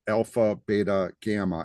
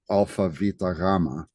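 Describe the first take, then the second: First: It is said with an American accent. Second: It is said with a Greek accent. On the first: "I'm saying it like an American" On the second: "in Greek we would say"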